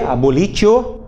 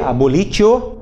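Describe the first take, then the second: First: The middle consonant is said as a t sound. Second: The middle consonant is said as a t sound.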